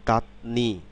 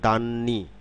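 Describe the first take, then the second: First: The first syllable ends in a t sound. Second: The first syllable ends in an n sound.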